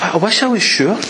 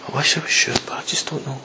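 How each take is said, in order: First: Higher, yearning admission; acted wish for certainty, pitched up; wishful doubt. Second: Quiet, fading admission; deflated doubt. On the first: Believer unsure God will help, wishful doubt. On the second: Acted. Believer unsure God will help, quiet deflated doubt. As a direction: trail down almost to nothing, giving up. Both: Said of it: "never experienced that".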